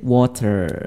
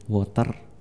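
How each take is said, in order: First: It is said in an American accent. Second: It is said in an Indonesian accent. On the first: "Kalau American" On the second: "kalau Indonesian sih kayak kita ngomong biasa"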